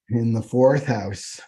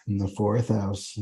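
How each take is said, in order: First: "in the fourth house" said slowly with weight on "fourth"; slow emphatic repeat. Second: Said in the usual way. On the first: Shown as a demonstration. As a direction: lean into "fourth", drawing out "in the fourth house".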